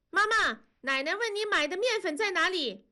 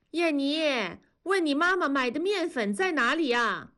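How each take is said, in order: First: 尖高的童声喊叫; 小女孩扯着嗓子传话; 孩子喊妈妈. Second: 老奶奶从厨房扬声喊; 隔着屋子喊问面粉在哪; 扬声喊人. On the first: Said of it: "燕妮就喊". (燕妮学奶奶的话喊妈妈，高亮童声) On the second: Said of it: "童母在厨房里喊". (奶奶在厨房喊孙女，提高嗓门问) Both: A narrator's reading.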